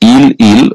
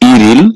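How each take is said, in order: First: The two syllables are said separately, unlinked. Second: The syllables are linked with an r sound. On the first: The speaker calls it wrong. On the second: The speaker calls it right.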